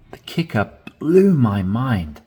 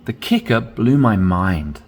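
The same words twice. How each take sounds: First: Blew rises and lands heavily; dramatic stress on blew. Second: Said in the usual way. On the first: Shown as a demonstration. Teacher reading dramatically so it becomes more powerful. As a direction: make blew sound mind-blowing. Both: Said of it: "The more emphasis you put on words".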